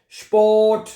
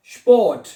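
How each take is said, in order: First: स्पोर्ट said higher and louder, ending in a hard ठ; emphatic pronunciation demo. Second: स्पोर्ट said louder, with a hard retroflex final ठ; emphatic pronunciation demo. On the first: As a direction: hit स्पोर्ट clearly so they copy it. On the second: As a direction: punch स्पोर्ट out clearly for students to repeat. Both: Shown as a demonstration. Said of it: "टी को ठे पढ़ा जाता है".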